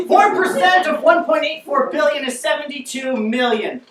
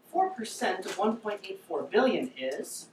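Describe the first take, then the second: First: Loud, higher, emphatic math answer; exasperated answer. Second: Soft, leading question left hanging on "is"; prompting the audience. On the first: Answers after crowd fails math. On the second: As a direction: trail up on "is" for the crowd to finish. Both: Acted.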